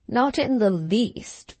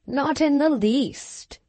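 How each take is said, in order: First: Level, slow, settled reply; complacent. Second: Raised, slow, airy reassurance; complacent. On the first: Doctor repeats his calm dismissal to the patient. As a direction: say it again calmly and evenly. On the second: Doctor calmly brushes off the slight, complacent. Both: A narrator's reading. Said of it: "said the doctor very complacently".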